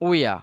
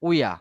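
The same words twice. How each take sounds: First: It is said as one reduced, run-together form. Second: The same.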